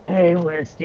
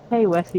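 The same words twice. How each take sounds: First: Croaking with a wrecked cold voice; lost voice. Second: Said in the usual way. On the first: Retold or imitated. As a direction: call out hoarsely with a broken voice. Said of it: "it was". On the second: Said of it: "instead of it being like".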